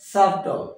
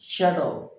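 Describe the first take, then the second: First: The b is sounded in the middle. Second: The b is silent in the middle. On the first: The speaker calls it wrong. "not subtle" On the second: The speaker calls it right. "B is totally silent, that is shuttle"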